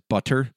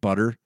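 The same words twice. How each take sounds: First: The double T is sounded out crisply and hard. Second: The double T is soft, almost like a D.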